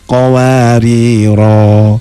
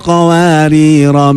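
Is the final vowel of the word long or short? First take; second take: long; short. First: The final vowel is held long before a stop. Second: The final vowel is short, flowing into the next word. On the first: The reciter stops at the end of the verse. "yang pertama diwakofkan menjadi roknya panjang" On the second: The reciter continues without stopping. "dua-duanya dibaca wasol"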